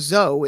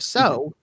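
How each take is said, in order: First: The word begins with a buzzing z sound. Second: The word begins with a hissing s sound. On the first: "change all of your S's to Z's" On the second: "instead of"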